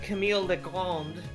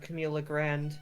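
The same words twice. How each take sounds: First: The name is said with a French accent. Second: The name is said with an English accent. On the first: "I say things with a slight French little hint"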